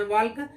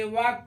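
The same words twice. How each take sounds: First: वॉल्क with L before K; mistaken sounded L. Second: वॉक with long vowel straight into K; silent L. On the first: Teacher warns off the misreading, वॉल्क with L. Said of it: "वॉल्क नहीं पढ़ते". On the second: Teacher shows how walk is read, वॉक without L. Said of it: "वॉक पढ़ते हैं". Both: Shown as a demonstration.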